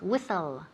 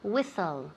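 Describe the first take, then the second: First: The t sound is silent in the middle. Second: The same.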